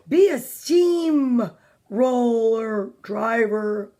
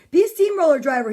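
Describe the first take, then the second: First: Each word stretched, sinking on driver; very slow storybook suggestion; drawn-out slow. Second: Brisk storybook quote, run together; fast, projected suggestion; quick read. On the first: Acted. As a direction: plod through it like a steamroller. Drawn out for Mister Slow's job. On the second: A narrator's reading. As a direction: say it straight through, quickly. Same line read at quicker pace.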